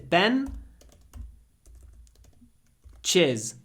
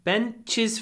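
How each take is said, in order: First: It is split into two parts with a break. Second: It is said smoothly as one joined word.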